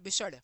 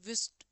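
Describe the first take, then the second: First: The word starts with a b sound and ends in d. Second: The word starts with a v sound and ends in t. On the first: "हमारे गांव के बच्चे के सामने" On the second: "विस्ट पढ़ेंगे"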